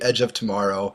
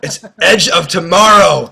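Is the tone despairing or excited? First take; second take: despairing; excited. First: It sounds flat and despairing. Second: It sounds loud and excited.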